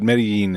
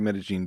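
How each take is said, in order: First: The double L is said without a zh sound. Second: The double L is said with a zh sound. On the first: "would be totally fine as well" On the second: "the accent is the zh on the double L"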